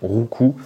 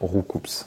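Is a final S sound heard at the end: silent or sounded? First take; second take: silent; sounded. First: The word ends without any S sound. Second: The word ends with an audible S sound. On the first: The speaker calls it right. "le S ne se prononce pas" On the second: The speaker calls it wrong. "je vais continuer à dire Roucoups"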